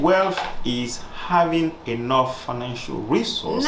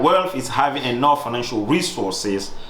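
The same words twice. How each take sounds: First: The tone is softer and gentler. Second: The tone is serious and firm. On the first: "can I say it softer?" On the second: "That's too serious"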